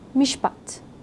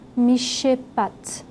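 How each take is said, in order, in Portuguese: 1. O sh e o p se juntam sem vogal entre eles. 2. Uma vogal curta é inserida entre sh e p. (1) "eu pronunciei ele cuidadosamente" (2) "Não mishpat"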